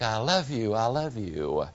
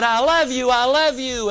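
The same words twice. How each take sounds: First: Lower, softer echo fading away; distant echo. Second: Put-on higher boy's voice calling the words out; lightly voiced boy shouting love across the valley; child calling out. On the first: Retold or imitated. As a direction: let it drift back faint and far off. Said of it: "the echo came back". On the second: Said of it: "the little boy ran out and he said".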